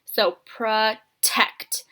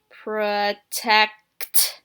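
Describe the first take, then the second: First: "protect" drawn out very slowly, sound by sound; stretching the word for young spellers; stretched out word. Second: "Protect" said slowly, sounds pulled apart; rereading the word to kids; sounding out. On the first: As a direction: stretch "protect" so kids hear each sound. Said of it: "let's really stretch it out". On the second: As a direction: sound out "Protect" while writing. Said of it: "go back and hear where I left off". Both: Shown as a demonstration.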